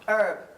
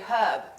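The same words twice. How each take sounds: First: It is said without the h sound. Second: It is said with the h sound.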